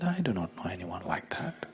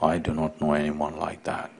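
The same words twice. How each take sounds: First: Soft whisper; a whispered, gentle reply from within. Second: Low, soft and grave; a low, grave voice from inside. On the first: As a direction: breathe it gently, almost silent. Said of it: "A gentle voice from inside said". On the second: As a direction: speak with solemn authority from within. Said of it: "A grave voice from inside said". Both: Acted.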